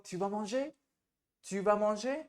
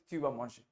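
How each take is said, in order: First: Rising question tune on "Tu vas manger?", voice lifts at the end; "Tu vas manger?" as a question, pitch climbing on "manger". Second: "Tu vas manger" with a falling statement tune; lower, falling "Tu vas manger" as a statement. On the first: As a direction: ask "Tu vas manger?" with a clear upward lilt. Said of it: "take more correct tone". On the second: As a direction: settle down on "manger" like a plain fact. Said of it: "आप कैसे पूछोगे tone लेके". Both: Shown as a demonstration.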